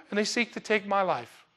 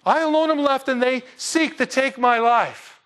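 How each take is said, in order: First: Said in the usual way. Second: Mocking Elijah. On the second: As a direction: drag it out like a scared prophet feeling sorry for himself. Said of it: "the dudette freaks you out?".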